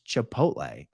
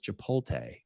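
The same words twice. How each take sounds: First: The T sound comes before the L sound. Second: The L sound comes before the T sound. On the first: The speaker calls it right. "look where the T is and look where the L is" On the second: The speaker calls it wrong. "I always thought it was Chipotle"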